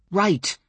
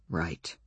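First: Said in the usual way. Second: Low murmured right; low quiet right. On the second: Acted. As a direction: drop it low and soft. Two takes of right.

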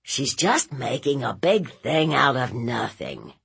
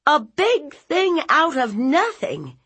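First: Dismissive nephew. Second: High, loud incredulous echo; outraged aunt. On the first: Nephew playing it down to aunt, dismissive. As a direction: shrug it off in a subdued voice. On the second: Aunt throwing nephew's words back, outraged. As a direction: hurl the phrase back in outrage. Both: Acted.

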